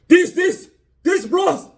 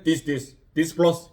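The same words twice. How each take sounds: First: It is said loudly, with raised volume. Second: It is said at a normal, quiet volume. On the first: The microphone hole is now covered by the case. "이렇게 크게 해야 들린다" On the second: The microphone hole was uncovered before. "옛날에 ... 이렇게 했던 거를"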